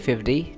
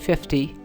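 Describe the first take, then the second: First: The middle consonant sounds like a soft d. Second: The middle consonant is a clear t sound. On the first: The speaker calls it wrong. "Do not say fifty" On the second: The speaker calls it right. "So the red one is exception. ... just say fifty"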